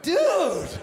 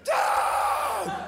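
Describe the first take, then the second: First: It is said startled and indignant. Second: It is said as a cry of pain. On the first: Caught in a private moment. "If he was having a wank in the bathroom and I walked in on him" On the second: Badly hurt in an accident. "If he blew off his fingers with some fireworks in Tijuana"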